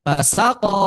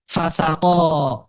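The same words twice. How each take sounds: First: Fasako with SA raised in pitch; fa-SA-ko, middle syllable highest; stress on second syllable. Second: Fasako with FA raised, very drawn out; FA-sa-ko, stretched, first syllable brought out; stress on first syllable. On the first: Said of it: "Kalau kita baca ini kan". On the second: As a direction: say fasako slowly, weight on the opening fa. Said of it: "fa-nya itu yang ditinggikan". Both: Shown as a demonstration.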